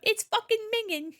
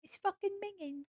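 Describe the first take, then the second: First: Loud, high mock British exclamation; bad UK accent. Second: Softer, high-pitched mock British voice; bad UK accent. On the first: Streamer imitating a video, loud bad British accent. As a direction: blurt it out in a hammed-up UK accent. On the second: Streamer amusing themself with the video line, quiet bad British accent. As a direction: squeak it quietly in a poor UK accent. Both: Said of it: "horrible accent".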